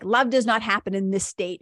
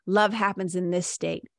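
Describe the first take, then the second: First: A tight, clenched voice, face and hands crunched up; tense, clenched. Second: A loose, open voice, face relaxed. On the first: Showing listeners the contracted state, tightly clenched. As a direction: squeeze the words out through a clenched body. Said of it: "I make tight fists with my hands". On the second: Showing listeners the open receptive state, relaxed. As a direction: let the words flow out easily, fingers uncurled. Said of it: "relax my face". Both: Shown as a demonstration.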